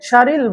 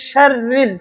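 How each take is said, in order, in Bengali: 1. r ধ্বনিটি ছোট এবং একক। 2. r ধ্বনিটি লম্বা করে টানা হয় এবং দ্বিত্ব। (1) "শারিল একটা র" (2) "এখানে ডবল র"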